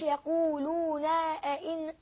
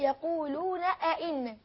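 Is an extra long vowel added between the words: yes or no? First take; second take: yes; no. First: An extra long vowel is added between the words. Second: No extra vowel is added between the words. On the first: The speaker calls it wrong. "لا ما تقولش يقولون أئنا" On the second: The speaker calls it right. "يبقى نقول إيه؟"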